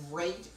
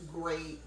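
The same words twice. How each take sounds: The two takes are said the same way.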